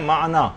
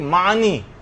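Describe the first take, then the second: First: The word ends with an 'a' sound. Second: The word ends with an 'i' sound. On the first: The speaker calls it right. "जबकि असल है माना" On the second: The speaker calls it wrong. "लोग पढ़ते हैं कि मानी"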